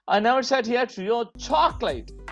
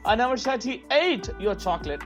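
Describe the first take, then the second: First: The stress is on "chocolate". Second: The stress is on "ate".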